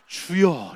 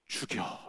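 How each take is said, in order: First: 주여 said fuller and louder from deep inside; heartfelt 주여 from the chest; deep inner cry. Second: 주여 breathed in a voiceless whisper; timid whispered 주여; whispered prayer. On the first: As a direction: call 주여 with conviction, the right way. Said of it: "이거를 마음속으로 깊이". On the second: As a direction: mutter 주여 under your breath, the wrong way. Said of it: "이렇게 하지 마시고". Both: Shown as a demonstration.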